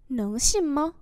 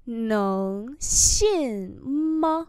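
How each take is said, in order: First: Said in the usual way. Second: Very slow, syllable by syllable; slow model reading. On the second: Shown as a demonstration. Teacher modelling Chinese phrases for learners, slow and drawn-out. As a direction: stretch each syllable out for learners.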